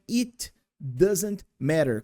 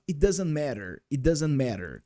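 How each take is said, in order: First: Slow, careful It doesn't matter; slow clear model. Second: "It doesn't matter" run together quickly; fast casual. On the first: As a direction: spell out each word of "It doesn't matter" slowly. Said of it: "que é". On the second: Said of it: "Quando a gente fala bem rapidinho". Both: Shown as a demonstration.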